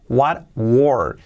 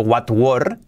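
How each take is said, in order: First: "what were" run together, stressing the R; "what were" linked, T swallowed; linked R demo. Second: "what were" with separate, fully sounded T; careful textbook "what were"; wrong pronunciation demo. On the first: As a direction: let the R carry "what were". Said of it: "no, las R's". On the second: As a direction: pronounce "what were" word by word, T intact. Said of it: "Fijaos que no digo". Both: Shown as a demonstration.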